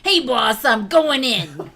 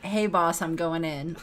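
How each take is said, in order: First: It is said in a put-on accent. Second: It is said in the speaker's normal voice.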